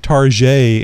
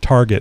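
First: The word is said in a fancy way. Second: The word is said in a plain way. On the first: "my wife likes to say" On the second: "instead of"

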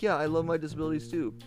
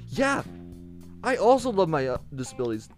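First: It sounds flat and insincere. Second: It sounds warm and sincere.

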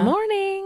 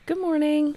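First: It sounds like a casual greeting to friends. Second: It sounds like a polite retail shop greeting.

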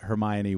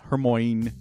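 First: The name ends with the sounds 'oh-nee'. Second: The name ends with the sound 'oyn'. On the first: The speaker calls it right. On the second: The speaker calls it wrong.

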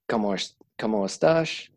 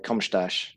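First: The ending vowels are fully pronounced. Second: The ending vowels are dropped. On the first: "instead of saying" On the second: "the ending vowels aren't pronounced"

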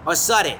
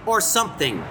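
First: The words are said fast and clipped together. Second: Both words are said fully and clearly.

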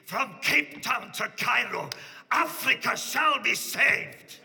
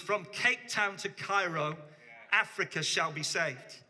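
First: It is said raspily, imitating Reinhard. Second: It is said in his own plain voice.

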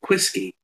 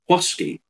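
First: The word is said with a sharper sound. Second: The word is said with a softer sound. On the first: This is the anglicised pronunciation. "it got anglicised and became whiskey, that sort of sharper note in it" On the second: This is the older native pronunciation. "They would say whiskey, whiskey. You know, it's a different pronunciation"

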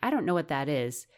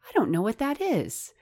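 First: It is said in a dismissive, closed tone. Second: It is said in a curious, open tone. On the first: The opportunity is not for me. The speaker calls it wrong. "rather than saying" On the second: I want to learn more about this opportunity. The speaker calls it right. "instead say"

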